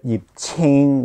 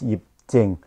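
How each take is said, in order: First: The second name starts with a ch sound. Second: The second name starts with a j sound. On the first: The speaker calls it wrong. "I don't know why they call it Yip Ching with a C" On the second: The speaker calls it right. "the pronunciation is Yip Jing"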